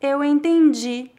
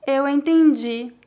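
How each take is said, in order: Both takes have the same delivery.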